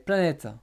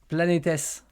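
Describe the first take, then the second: First: The final ending is silent after the t. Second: The final ending is pronounced as an extra syllable.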